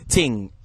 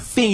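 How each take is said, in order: First: The word begins with a t sound. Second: The word begins with a th sound. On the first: This is the Jamaican patois way. "some T H words are actually pronounced just as T's. ... you say ting" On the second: This is the standard English way. "So instead of saying thing"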